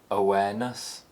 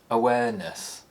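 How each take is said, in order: First: The pitch rises to a high point. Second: The pitch falls from a high starting point. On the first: "the high rise" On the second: "high falls"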